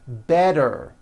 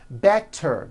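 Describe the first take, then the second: First: The middle consonant is a voiced D sound. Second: The middle consonant is a clear T sound.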